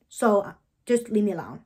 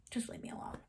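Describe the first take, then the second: First: Said in the usual way. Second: Breathy whisper, almost no voice; whispered brush-off. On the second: Retold or imitated. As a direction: hush it out, shutting her down. Snapping at a castmate who checks.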